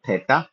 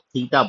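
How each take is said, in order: First: The first vowel is a short e sound. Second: The first vowel is a long ee sound. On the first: The speaker calls it right. "इसका एक्चुअल उच्चारण है थेटा" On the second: The speaker calls it wrong. "हम लोग बहुत बार गलती से इसको थीटा बोलते हैं"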